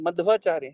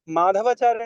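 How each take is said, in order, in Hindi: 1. 'dh' और 'v' ध्वनियाँ बिना किसी स्वर के जुड़ती हैं। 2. 'dh' और 'v' ध्वनियों के बीच एक पूरा स्वर आता है। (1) "मध्वाचार्य है" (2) "माधवाचार्य नहीं है"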